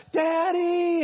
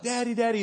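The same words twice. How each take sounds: First: High, drawn-out cry for dad; mock child's scream. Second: Lightly mimicked excited kid, a bit higher; excited small child. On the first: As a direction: imitate a lost little boy screaming out. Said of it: "he's screaming". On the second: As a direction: imitate a little boy glad to spot his dad. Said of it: "he's, like, super excited".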